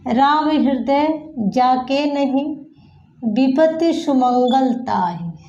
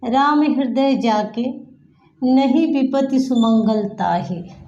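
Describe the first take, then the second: First: The pause comes right after 'नहीं'. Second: The pause comes right before 'नहीं'.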